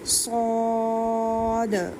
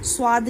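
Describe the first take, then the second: First: The letter name is said heavy and strong. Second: The letter name is said light and thin. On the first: The speaker calls it right. "Strong कहना है" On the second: The speaker calls it wrong. "स्वाद नहीं कहना इसको"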